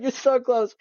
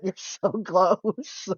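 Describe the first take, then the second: First: Put-on pitched up and bright like cheering a kid on; high mock cheer. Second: Slow, breaking into a laugh mid-line; laughing encouragement. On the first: Repeating it to mom, higher and teasing. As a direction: cheer her on in a sing-song high voice. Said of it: "I'm like". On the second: Retold or imitated. To mom after she half gets it right, laughing. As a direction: tease mom gently while giggling. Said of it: "And I was like".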